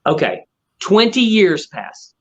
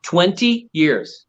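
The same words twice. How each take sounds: First: Betonung auf „twenty“, langsam und bestimmt; „twenty years“ dramatisch ankündigen; twenty stressed. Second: „Twenty“ sehr langsam und schwer betont; slow stress on twenty. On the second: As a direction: die Zahl „Twenty“ Silbe für Silbe dehnen. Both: Shown as a demonstration. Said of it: "Are you listening?".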